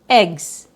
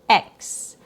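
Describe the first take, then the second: First: It is a short i vowel plus 'gz'. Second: It is a short e vowel plus 'ks'. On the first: "a short I sound plus G plus Z" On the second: "a short E sound plus K S"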